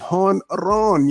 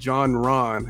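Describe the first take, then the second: First: The word begins with a breathy 'h' sound. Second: The word begins with an English 'j' sound. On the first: The speaker calls it right. "It doesn't sound like Hon Ron" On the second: The speaker calls it wrong. "If you look at J-O-N, you'll be like John Ron"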